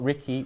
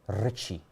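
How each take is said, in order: First: Said English-style, with a k sound in the middle. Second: Said with a rolled r and a ch sound. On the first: The speaker calls it wrong. "which you're pronouncing it as the English way" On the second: The speaker calls it right. "with the R being rolled, and the double C being ch"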